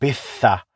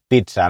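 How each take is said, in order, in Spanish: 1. La consonante del medio se exagera mucho. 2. La consonante del medio se pronuncia de forma normal. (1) "la gente yo creo que ve la doble Z y lo exagera ya" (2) "Yo la pronuncio así"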